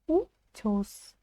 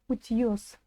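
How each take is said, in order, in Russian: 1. Гласный после т звучит как 'e'. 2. Гласный после т звучит как 'yo'. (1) "Она звучит как «э»" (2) "не звучит там «утьёс» через «ё»"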